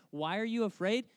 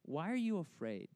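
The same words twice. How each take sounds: First: Higher, mock-baffled question; incredulous echo. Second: Measured, unruffled question; calm Jesus. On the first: Preacher echoes Jesus' strange rebuke to disciples, incredulous. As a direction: throw the question back in disbelief. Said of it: "how strange is that?". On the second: Retold or imitated. Jesus to frightened disciples after calming the storm, calm question. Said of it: "he turns to them, and he says".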